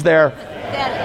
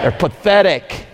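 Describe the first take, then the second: First: Said in the usual way. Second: Slow, scornful They're pathetic; with disdain. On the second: Shown as a demonstration. Preacher showing the crowd how to say it, full of disdain. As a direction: drag out pathetic with contempt. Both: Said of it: "say it with disdain".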